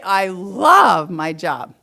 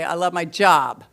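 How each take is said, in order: First: It sounds warm and enthusiastic. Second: It sounds negative and unconvinced. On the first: The speaker really likes the job. "do I like my job? Yeah" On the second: The speaker does not like the job at all. "definitely not"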